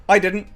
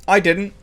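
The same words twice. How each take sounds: The two takes are said the same way.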